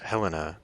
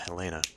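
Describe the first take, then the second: First: The stress falls on the first syllable. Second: The stress falls on the second syllable. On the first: This is how the Montana state capital is pronounced. "as a Montanan, I would pronounce this Helena, like the capital of the state" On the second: This is the usual pronunciation of the name. "I pronounced that Helena because that's probably how it's pronounced"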